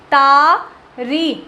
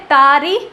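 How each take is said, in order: First: ਤਾਰੀ with the first vowel stretched very long and slow; long drawn-out vowel. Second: Said in the usual way. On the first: Shown as a demonstration. Teacher shows students how a heavy syllable sounds, drawn out slowly. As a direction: stretch out the ਤਾ in ਤਾਰੀ to show its length. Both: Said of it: "उच्चारण में समय लग रहा है".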